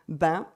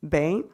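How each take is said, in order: First: The name is said with a French pronunciation. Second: The name is said with an English pronunciation.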